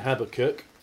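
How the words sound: The name is said in an English pronunciation. "we'll stick with an English pronunciation"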